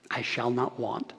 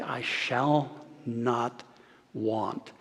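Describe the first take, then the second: First: Quiet proclamation. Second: Slow quiet proclamation. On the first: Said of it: "he would proclaim". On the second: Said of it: "he would say". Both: Retold or imitated.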